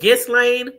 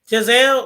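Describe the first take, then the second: First: The name is said like Ghislaine. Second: The name is said like Giselle. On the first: The speaker calls it right. "I think that's how you say it" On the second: The speaker calls it wrong. "why I keep calling her Giselle?"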